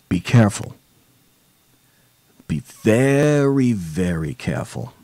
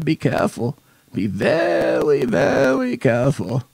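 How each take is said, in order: First: It is said in his normal voice. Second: It is said in an Elmer Fudd impression.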